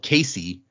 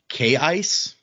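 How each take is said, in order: First: The name ends in an ee sound. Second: The name ends in an s sound. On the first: The speaker calls it wrong. "who we called Casey" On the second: The speaker calls it right. "the pronunciation is actually K-Ice"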